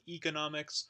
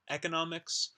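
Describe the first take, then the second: First: The first vowel is a tense 'ee' sound. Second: The first vowel is a lax 'eh' sound. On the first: "high front um, unrounded tense vowel E, so like economics" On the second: "the eh sound"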